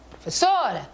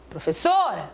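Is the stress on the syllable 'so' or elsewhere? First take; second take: so; so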